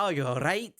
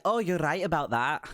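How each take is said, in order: First: Mock French accent, lightly done; stupid French accent. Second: Lightly voiced cheerful woman in a put-on accent; a hint of a girlish, accented stranger; high-pitched female character. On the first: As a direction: slip into a bad French accent. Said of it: "that stupid French accent". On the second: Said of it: "this high-pitched kind of jingle of a laugh".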